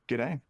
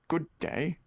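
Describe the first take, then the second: First: The greeting is clipped into one quick syllable. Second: Both words of the greeting are said fully. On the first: It is the casual everyday greeting. "It's just rolls off the tongue" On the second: It sounds posh. "It sounds posh already"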